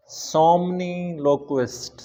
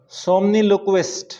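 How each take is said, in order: First: Somniloquist drawn out even slower and softer, falling at the end; slow, soft repeat. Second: Somniloquist spelled out slowly, syllable by syllable, a little higher. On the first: Teacher repeating somniloquist softly so students catch it. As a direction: say somniloquist again, gently and very slowly. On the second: Teacher sounding out somniloquist slowly for students. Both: Shown as a demonstration.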